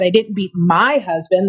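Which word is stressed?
my. The word my carries the main stress. Someone else's husband was the one beaten. "That's implying somebody else's"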